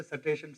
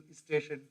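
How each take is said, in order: First: "Station" as "sateshan", a vowel splitting s and t; Punjabi English accent. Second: "is station" as one word, "istation"; UP English accent. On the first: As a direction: slip a short "a" between the s and t of "Station". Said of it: "You go to Punjab, they say". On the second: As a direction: put a short i before the st of "is station". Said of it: "You go to U P, they say". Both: Shown as a demonstration.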